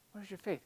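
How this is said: It is said softly, with a gentle tone. The listeners are being kindly reminded to trust. "maybe more gentle?"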